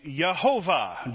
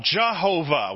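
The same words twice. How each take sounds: First: Yehovah opening on a Y sound, "yeh-HO-vah"; Y pronunciation. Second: Jehovah opening on an English J, "juh-HO-vah"; J pronunciation. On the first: Preacher showing how the name was formed, Y pronunciation. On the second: Preacher showing the name brought into English, J pronunciation. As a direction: say Jehovah with J replacing the Y. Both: Shown as a demonstration. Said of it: "when you change that Y to a J".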